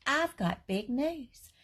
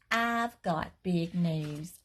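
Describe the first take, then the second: First: Put-on higher, slow little girl announcing; a first grader bursting with news; excited child voice. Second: Said in the usual way. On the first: Repeated in child voice.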